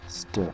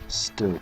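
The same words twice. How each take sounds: First: The word is said in a relaxed, easy way. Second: The word is said with forced, careful articulation. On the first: "It's so much easier just to stew" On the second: "I have to like force my mouth to like make stew"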